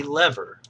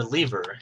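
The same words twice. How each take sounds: First: "lever" said LEV-er, rhyming with never; short-e lever. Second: "lever" said LEE-ver, rhyming with beaver; long-e lever. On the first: Teacher offering viewers one pronunciation, "lever" as LEV-er. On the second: Teacher offering viewers the other pronunciation, "lever" as LEE-ver. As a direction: say "lever" with a long ee in the first syllable. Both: Shown as a demonstration. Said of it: "however you want to pronounce it".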